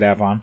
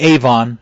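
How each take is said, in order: First: It is pronounced the local way. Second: It is pronounced the widely used way. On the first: This is how people in the area say it. "out here they pronounce it Avon" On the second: This is how most people say it. "which most people would say Avon"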